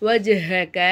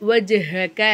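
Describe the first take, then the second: No difference in how they are said.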